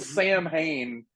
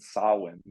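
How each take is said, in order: First: The name is sounded out as spelled. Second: The name is said in its native form. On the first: The speaker calls it wrong. "which is a mispronunciation" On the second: The speaker calls it right. "it's actually pronounced Samhain"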